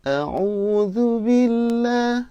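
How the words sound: It is recited at the highest pitch. "lebih tinggi lagi"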